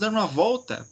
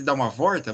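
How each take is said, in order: First: The word is said with an L sound, 'volta'. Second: The word is said with an R sound, 'vorta'. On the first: The speaker calls it right. "vamos dar uma volta" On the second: The speaker calls it wrong. "ao invés de"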